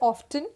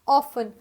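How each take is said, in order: First: The t sound is pronounced in the middle. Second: The t sound is left out in the middle. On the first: This is the American way of saying it. "American usually इसको pronounce करेंगे" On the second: This is the British way of saying it. "Britishers use"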